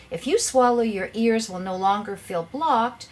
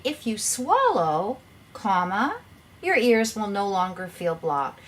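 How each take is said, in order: First: "swallow" running straight into "your ears"; no break after "swallow"; run-on without a comma. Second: Slow "If you swallow", then comma named aloud; pause after "swallow". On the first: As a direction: read "swallow your ears" as one unpunctuated phrase. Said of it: "you need the commas to clarify". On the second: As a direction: stretch "swallow" and break before "your ears". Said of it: "you would say". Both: Shown as a demonstration.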